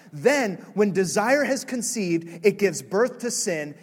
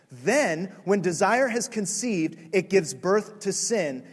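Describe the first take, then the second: The two takes are said the same way.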